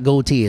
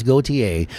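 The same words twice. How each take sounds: First: Gautier as "goatee", no final "ay"; mispronunciation shown. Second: Gautier in three syllables, "go-tee-AY"; corrected pronunciation. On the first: Host showing the wrong reading of a singer's name, [name] as goatee. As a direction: say Gautier in two syllables, "go-TEE". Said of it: "It's not [name], it's [name]". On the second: Host correcting his own slip on a singer's name, Gautier as go-tee-AY. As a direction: finish Gautier on "ay", lower voice. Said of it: "is how you pronounce that". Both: Shown as a demonstration.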